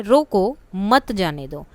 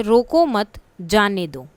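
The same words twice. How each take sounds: First: Slow "रोको", clear pause, then "मत जाने दो"; विराम चिन्ह का ठहराव. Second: "रोको मत" एक साथ, फिर रुककर "जाने दो"; विराम चिन्ह का ठहराव. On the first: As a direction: pause right after रोको, keep "मत जाने दो" together. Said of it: "अब रोको के बाद लगा दिया". ("रोको" के बाद ठहराव) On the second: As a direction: pause after मत, none after रोको: "रोको मत, जाने दो". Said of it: "विराम चिन्ह का, जैसे". ("मत" के बाद ठहराव) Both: Shown as a demonstration.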